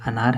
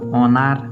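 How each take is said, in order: First: The first vowel is a short 'a' sound. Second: The first vowel is an 'o' sound. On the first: The speaker calls it right. "अनार है" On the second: The speaker calls it wrong. "जो लोग इसको ओ पढ़ेंगे तब तो इसको पढ़ना पड़ेगा ओनार"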